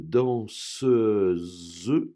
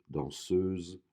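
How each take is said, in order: First: The final syllable is pronounced fully and clearly. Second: The final syllable is pronounced weakly and lightly. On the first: "j'ai fait exprès de prononcer la dernière syllabe" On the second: "normalement, elle est moins accentuée"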